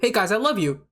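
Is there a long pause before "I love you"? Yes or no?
no. No long pause comes before "I love you."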